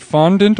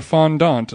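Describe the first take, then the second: First: Fondant with a reduced second syllable, FON-dint; anglicized pronunciation. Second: Fondant with a full open second vowel, fon-DONT; French-leaning pronunciation. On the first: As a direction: say fondant as FON-dint, weak last vowel. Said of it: "choose a pronunciation and stick with it". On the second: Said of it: "which is it?". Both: Shown as a demonstration.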